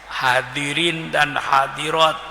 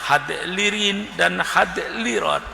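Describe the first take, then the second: First: The d is said plainly with no l sound. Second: An l sound follows the d, read from spelling.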